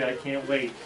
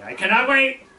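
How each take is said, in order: First: Said in the usual way. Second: High, loud French-Canadian eagerness; thick French accent. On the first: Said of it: "And I said". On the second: Retold or imitated. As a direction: burst out in a hammed-up French accent. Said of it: "very thick French accent".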